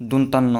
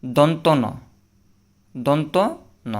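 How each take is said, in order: First: দন্তান্ন run together as one word; দন্তান্ন, the common mistake; wrong reading. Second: দন্ত ন split clearly in two parts; দন্ত ন, careful teacher voice; correct pronunciation. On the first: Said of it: "অনেকে বলে যে এটাকে". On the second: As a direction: model দন্ত ন slowly. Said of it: "এটা সঠিক উচ্চারণ হবে". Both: Shown as a demonstration.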